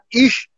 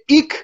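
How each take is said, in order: First: The word ends with a soft sh sound. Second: The word ends with a hard k sound. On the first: This is how people in Berlin say it. "شما توی برلین اگر نگاه بکنی یه جور صحبت میکنن، ایشو میگن ایش" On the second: This is how people in the north say it. "شمال میری میشه ایک"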